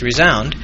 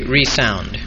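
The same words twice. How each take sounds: First: The middle S is voiced, like a z. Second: The middle S is voiceless, like an s. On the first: Something echoes or resonates. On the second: Something makes a sound again.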